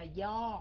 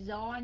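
First: The word begins with a y-like sound. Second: The word begins with a z-like sound. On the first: The speaker calls it right. "mà là do" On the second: The speaker calls it wrong. "Chứ không phải chữ chữ Z của người Bắc, không phải do nha"

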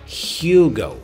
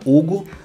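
First: It is said with an English pronunciation. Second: It is said with a Brazilian Portuguese pronunciation. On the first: "mas em inglês seria Hugo" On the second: "Pra gente aqui no Brasil é Hugo, né? A gente fala Hugo"

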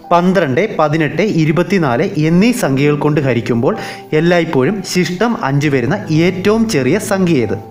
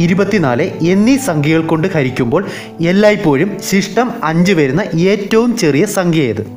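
The two takes are said the same way.

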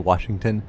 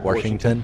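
First: The word is said without an added R sound. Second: The word is said with an added R sound. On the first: "like how people say Washington" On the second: "sometimes they say it with an R"

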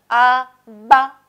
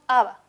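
First: The b is a full stop with closed lips. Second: The b is soft, with lips not fully closed. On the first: The speaker calls it wrong. "no es muy común" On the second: The speaker calls it right. "Es más suave, más relajado"

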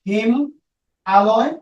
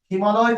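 First: The two parts are said apart with a gap. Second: The two parts are joined in one breath. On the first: The speaker calls it wrong. "একটু দূরে দূরে বলি" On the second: The speaker calls it right. "এক শ্বাসে বলতাম"

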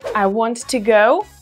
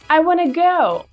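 First: Want and to are said as two full words. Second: Want and to merge into one reduced word. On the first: "вместо want to" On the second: "мы говорим wanna"

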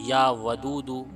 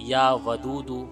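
No difference in how they are said.

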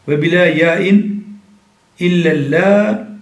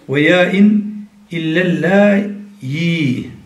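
First: A glottal stop is heard with no y-glide. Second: A glottal stop is followed by a y-glide. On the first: "bilâ yâin" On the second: "illellâ'i hemze ile okunuşu. Ve yâin"

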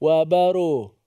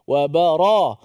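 First: The vowel after the r is rounded, like u. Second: The vowel after the r is open, like a. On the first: The speaker calls it wrong. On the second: The speaker calls it right.

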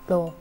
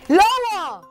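First: It is said at a normal, quiet volume. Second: It is said loudly and in a higher voice.

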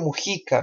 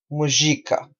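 First: The name is pronounced the Spanish way. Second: The name is pronounced the Portuguese way. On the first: "en español Mujica" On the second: "en portugués la pronuncia sería Mujica"

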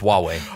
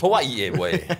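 First: It sounds like two short syllables, wah-way. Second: It sounds like Hawaii followed by way. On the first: The speaker calls it right. "No, it's Huawei" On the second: The speaker calls it wrong.

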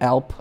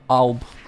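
First: The word ends with a p sound. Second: The word ends with a b sound. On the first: The speaker calls it wrong. "Not Alp" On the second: The speaker calls it right. "Alb, with a B"

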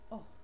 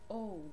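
First: The vowel is said as its short sound. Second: The vowel is said as its letter name. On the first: "What is the sound of vowel O? It's O" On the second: "when we have the magic E, we say it O"

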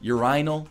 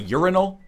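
First: The word has a non-North-American pronunciation. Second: The word has the North American pronunciation. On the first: "we don't say urinal in North America" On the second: "We say urinal"

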